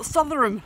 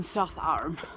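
First: The name is said the newcomer way. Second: The name is said the local way. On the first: The speaker calls it wrong. "like I used to call it when we first arrived here" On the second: The speaker calls it right. "I'm in Southowram"

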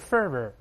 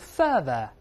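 First: The ending is said with an r sound. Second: The ending is said without an r sound. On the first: "美国人都是fervor。加个儿化音就好了啊" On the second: "英国人都是fervor"

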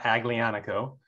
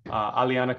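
First: The G sound is pronounced in the word. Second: The G sound is silent in the word. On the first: The speaker calls it wrong. "The G is silent, so it's not Aglianico" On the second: The speaker calls it right. "The G is silent"

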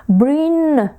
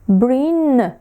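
Both takes have the same delivery.

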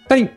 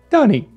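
First: The name is said fast. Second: The name is said slowly.

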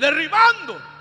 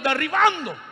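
First: It is shouted loudly. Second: It is said at normal volume.

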